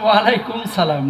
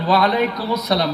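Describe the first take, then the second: First: The words are joined without an 'us' sound. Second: The words are joined with an 'us' sound. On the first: The speaker calls it wrong. "আপনারা অনেকে বললেন ওয়ালাইকুম সালাম, না" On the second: The speaker calls it right. "বলেন ওয়ালাইকুমুস সালাম"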